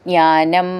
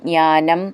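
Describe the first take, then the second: No difference in how they are said.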